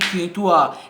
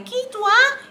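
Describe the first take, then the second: First: The voice is pitched low. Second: The voice is pitched high.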